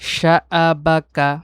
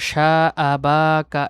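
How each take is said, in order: First: Each vowel is said short and quick. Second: The vowels are stretched out long. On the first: The speaker calls it right. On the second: The speaker calls it wrong.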